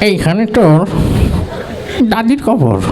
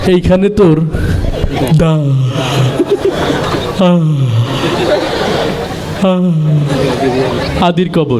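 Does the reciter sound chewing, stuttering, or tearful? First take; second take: chewing; stuttering. First: The voice sounds old, with a full mouth. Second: The voice stutters and repeats a syllable. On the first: The reciter is an elderly man chewing betel. "একজন মুরব্বী মানুষ পান খাতে খাতে" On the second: The reciter has a stutter. "একটা তুতলা ছেলে, যার কথা বলতে একটু সময় লাগে"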